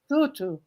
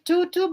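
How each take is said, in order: First: The word is said with softer sounds. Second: The word is said with harder sounds. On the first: "but I think it's more soft" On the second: "it's like tutu"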